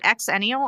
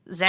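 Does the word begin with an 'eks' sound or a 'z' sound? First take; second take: eks; z. First: The word begins with an 'eks' sound. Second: The word begins with a 'z' sound. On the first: "do you pronounce it exennial?" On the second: "I pronounce it zennial"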